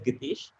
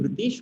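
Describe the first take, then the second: First: The name begins with a G sound. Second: The name begins with an R sound. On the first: "went as Gitesh" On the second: "my name Ritesh"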